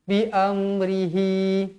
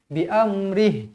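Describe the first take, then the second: First: It ends with a short added i vowel. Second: It ends on the h sound, with no vowel. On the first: The reciter carries on to the next words. "Kalau kita sambung" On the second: The reciter stops after this word. "Kalau kita berhenti"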